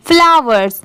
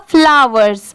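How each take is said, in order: Both takes have the same delivery.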